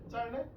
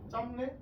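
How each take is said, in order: First: The middle consonant is an l sound. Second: The middle consonant is an m sound. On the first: The speaker calls it right. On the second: The speaker calls it wrong.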